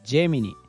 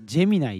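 First: The name ends with a 'nee' sound. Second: The name ends with a 'nye' sound. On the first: "名前はジェミニ。" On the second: "ネイティブはジェミナイっていうみたいなんで"

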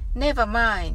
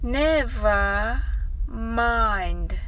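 First: The phrase is spoken much faster. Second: The phrase is spoken slowly. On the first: "Let's say much faster" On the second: "最初はゆっくりです。"

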